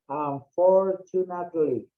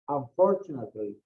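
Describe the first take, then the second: First: It is said slowly, broken into separate syllables. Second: It is said smoothly as one connected word. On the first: "try to cut it in, in pieces, okay, in segments" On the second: "we have practice, we just uh, say it"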